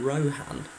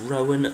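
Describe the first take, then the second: First: The name is said with an h sound. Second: The name is said without an h sound. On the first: The speaker calls it wrong. "not Rohan" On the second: The speaker calls it right. "It's pronounced Rowan"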